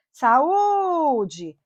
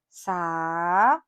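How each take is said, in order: First: "saúde" with a long, raised ú; stressed vowel stretched. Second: "saúde" split into sa, ú, de; syllable by syllable. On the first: Teacher showing the tonic syllable, long ú in "saúde". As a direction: hold and hit the ú of "saúde". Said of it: "Qual é a sílaba tônica?". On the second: Teacher dividing a word for class, "saúde" syllable by syllable. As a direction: say "saúde" in three separated syllables. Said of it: "vamos separar?". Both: Shown as a demonstration.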